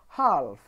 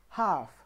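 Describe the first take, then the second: First: The L sound is pronounced in the word. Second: The L sound is silent in the word. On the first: The speaker calls it wrong. "I'm not saying half" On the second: The speaker calls it right. "There is no L sound in these words"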